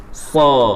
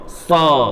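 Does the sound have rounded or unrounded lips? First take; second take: unrounded; unrounded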